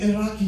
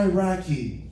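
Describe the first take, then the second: First: "Iraqi" as ih-RAH-kee, broad ah; native pronunciation. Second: "Iraqi" Americanized, flat a in RACK-ee. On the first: Correcting a friend's example, "Iraqi" said the native way, ih-RAH-kee. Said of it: "say shit the right way first". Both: Shown as a demonstration.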